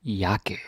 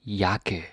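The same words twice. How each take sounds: The two takes are said the same way.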